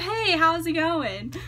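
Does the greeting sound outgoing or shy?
outgoing. The greeting sounds loud, bubbly and outgoing. The person is eager to chat with strangers. "when I first meet someone, I'm not like"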